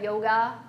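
It is said in a General American accent.

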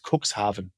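It is said the German way.

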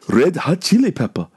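It is said in an imitated Japanese accent.

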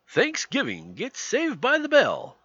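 It is said in a primetime announcer voice.

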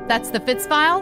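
The voice rises at the end, like a question.

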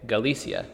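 The c is pronounced like an s sound. "like you just say the CA like it is an S"

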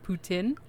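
The word is said with a French pronunciation. "French Canadians might yell at me, but they pronounce it as poutine"

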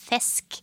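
The vowel is a narrow, tight E. The speaker calls it right. "Men veldig sånn trang E"

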